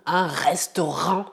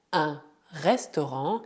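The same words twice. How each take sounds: First: Un restaurant with a non-French R; wrong R. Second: Restaurant with the R from the throat; guttural French R. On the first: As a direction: restaurant said the wrong way, without the throat R. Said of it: "e não un restaurant". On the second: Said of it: "o R gutural, que vem da garganta". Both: Shown as a demonstration.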